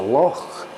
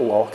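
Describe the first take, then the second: First: The word ends with a rasp in the throat. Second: The word ends with a hard k sound. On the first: The speaker calls it right. "it's a loch. You have this thing going on with the back of your throat" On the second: The speaker calls it wrong. "No, it's not loch"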